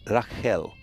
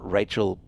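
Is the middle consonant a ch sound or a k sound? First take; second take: k sound; ch sound. First: The middle consonant is a k sound. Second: The middle consonant is a ch sound. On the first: The speaker calls it right. "C H is a letter, right? It's K. So it would be Rachel" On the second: The speaker calls it wrong. "So it's not Rachel"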